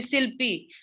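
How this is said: The name begins with s and an i vowel. "when I was in Assam, they used to call me Silpi"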